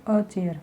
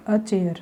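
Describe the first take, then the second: First: "a chair" said slowly, stressing a; slow emphatic demo. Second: Said in the usual way. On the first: Shown as a demonstration. Teacher repeats "a chair" slowly to contrast with the. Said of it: "the chair ना बोलकर हम बोलेंगे a chair". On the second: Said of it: "हम बोलेंगे a chair".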